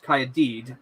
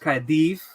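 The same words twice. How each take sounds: First: The final consonant is a plain d sound. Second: The final consonant is a soft th sound. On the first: The speaker calls it wrong. "but it's not" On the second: The speaker calls it right. "double D is pronounced T H"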